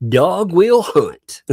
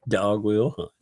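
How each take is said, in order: First: Slow, high, loud Southern drawl on Dog will hunt; exaggerated slow Southern saying. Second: Said in the usual way. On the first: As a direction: stretch Dog will hunt out like a good ol' boy. Repeating chat in Southern drawl.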